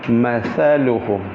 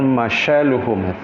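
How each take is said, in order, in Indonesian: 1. Huruf tengahnya bunyi 'th'. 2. Huruf tengahnya bunyi 'sh'. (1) "Mathaluhum, ... ujung lidah berada di ujung gigi sebelah atas" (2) "bukan masyaluhum"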